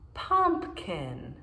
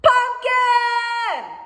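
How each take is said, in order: First: It is said in a plain, normal voice. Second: It is said very loudly, almost shouted.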